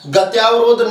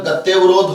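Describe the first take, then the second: First: The vowel after 'ty' is a long 'aa'. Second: The vowel after 'ty' is a short 'a'. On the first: The speaker calls it wrong. "गत्यावरोध नहीं होता है" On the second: The speaker calls it right. "गत्यवरोध होता है"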